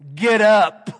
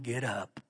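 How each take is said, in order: First: It is said sharply and forcefully. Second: It is said softly and gently. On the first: An urgent command to act now. The speaker calls it right. "When I read it, he said" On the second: A gentle, comforting request. The speaker calls it wrong. "I don't believe he said in a real tender voice"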